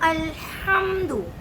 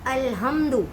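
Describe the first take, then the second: First: The h is a strong, throaty sound. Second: The h is a light, plain sound. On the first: The speaker calls it right. "क़िरअत के तौर पे पढ़ें तो आप पढ़ेंगे" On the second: The speaker calls it wrong. "बगैर क़िरअत के पढ़ें तो ये क्या हो जाएगा"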